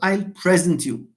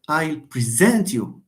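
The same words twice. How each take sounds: First: The stress is on the first syllable. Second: The stress is on the second syllable. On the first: The speaker calls it wrong. "not I'll present you" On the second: The speaker calls it right. "We say I'll present you, ... when you have a verb, stress falls on the second syllable"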